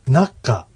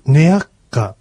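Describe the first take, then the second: First: The word is shortened, starting na. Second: The word is said in full, starting ne-a. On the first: "ナッカぐらいで" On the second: "次に来る、ネアッカというのも"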